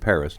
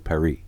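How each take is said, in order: First: Paris is said with an English pronunciation. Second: Paris is said with a French pronunciation. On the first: "I'm pronouncing it the way I want to pronounce it" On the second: "not to Paris"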